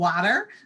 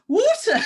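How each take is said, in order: First: It is said in a strong Californian accent. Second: It is said in a prim, non-American way.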